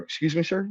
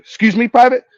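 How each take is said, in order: First: Higher, softer questioning voice; retold baffled private; puzzled, respectful query. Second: Loud, high-pitched challenge to a private; acted officer's sharp rebuke; affronted officer. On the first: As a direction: ask the officer in polite disbelief. Puzzled private questions his superior. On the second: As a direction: pull rank in outraged disbelief. Officer reacts to private's outburst.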